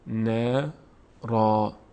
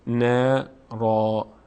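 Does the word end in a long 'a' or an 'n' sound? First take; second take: long a; long a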